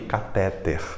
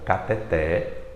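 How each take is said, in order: First: The stress is on the second-to-last syllable. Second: The stress is on the last syllable. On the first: The speaker calls it wrong. "Pronunciando como se fosse uma paroxítona" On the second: The speaker calls it right. "ela é uma oxítona"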